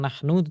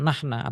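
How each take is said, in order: First: The word ends with an 'u' vowel. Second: The word ends with an 'a' vowel. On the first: This is the formal standard form. The speaker calls it right. "seharusnya mengatakan nahnu" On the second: This is the colloquial everyday form. The speaker calls it wrong. "tetapi mera- mengatakan nahna atau nehna"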